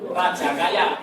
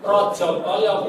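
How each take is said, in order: First: The vowels are pronounced as a sounds. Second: The vowels are pronounced as o sounds. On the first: The speaker calls it wrong. "bukan raja kaya" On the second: The speaker calls it right. "berarti maksudnya yo rojo koyo"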